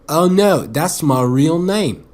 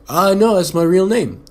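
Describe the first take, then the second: First: It is said in a put-on English accent. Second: It is said in the speaker's plain accent.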